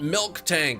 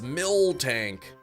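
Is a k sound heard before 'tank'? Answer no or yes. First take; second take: yes; no. First: A k sound is heard before 'tank'. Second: No k sound is heard before 'tank'. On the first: The speaker calls it wrong. "It's not Milk Tank" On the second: The speaker calls it right. "it's Mill Tank"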